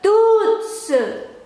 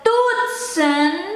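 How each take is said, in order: First: The word ends on a vowel, without n. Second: The word ends with a clear n sound. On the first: "kalau ada n-nya di belakang nggak disebutin" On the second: "kalau ada n-nya saya sebutin"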